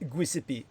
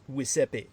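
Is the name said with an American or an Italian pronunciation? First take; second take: American; Italian. First: The name is said with an American pronunciation. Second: The name is said with an Italian pronunciation. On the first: The speaker calls it wrong. "an Americanization and therefore basically uh, a bastardization, a corruption" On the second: The speaker calls it right. "The actual pronunciation in the Italian"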